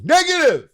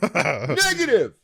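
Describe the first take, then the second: First: High, loud barked "Negative!"; hammed-up soldier shout; mock military shout. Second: Slow, stretched "Negative!"; hammed-up slow soldier call; drawn-out mock shout. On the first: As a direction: yell it like a soldier refusing orders. Mock soldier reply in game. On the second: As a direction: drag the word out like a soldier. Repeats the mock soldier reply.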